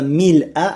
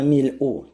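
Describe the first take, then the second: First: The word ends with an 'a' vowel. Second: The word ends with a 'u' vowel. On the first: The word is in the accusative case. "мансуб" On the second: The word is in the nominative case. "как марфу"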